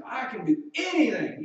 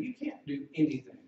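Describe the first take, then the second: First: Loud high bragging claim; cocky mock boast, much louder and higher. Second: Said in the usual way. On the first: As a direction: puff up like a know-it-all. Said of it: "and they think that means".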